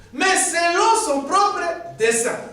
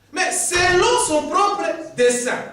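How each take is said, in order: The two takes are said the same way.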